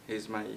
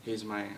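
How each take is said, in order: Both takes have the same delivery.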